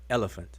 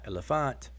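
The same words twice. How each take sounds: First: The stress is on the first syllable. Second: The stress is on a later syllable. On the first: The speaker calls it right. "the stress is on the first syllable" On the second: The speaker calls it wrong. "Not elephant"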